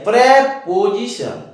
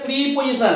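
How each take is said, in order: First: The first syllable has an 'eh' vowel. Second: The first syllable has an 'ee' vowel. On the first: The speaker calls it right. "प्रे है" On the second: The speaker calls it wrong. "प्री नहीं है"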